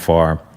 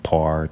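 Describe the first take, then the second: First: The name begins with an F sound. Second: The name begins with a P sound. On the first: The speaker calls it right. "it's the F sound there" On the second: The speaker calls it wrong. "I've been called everything from par"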